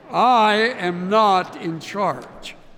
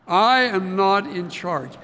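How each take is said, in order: First: It is said forcefully, with strong conviction. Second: It is said in a plain, casual way. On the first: "Now say it like you mean it" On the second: "say it with me"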